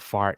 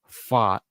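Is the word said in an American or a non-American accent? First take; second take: American; non-American. First: It is said in an American accent. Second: It is said in a non-American accent.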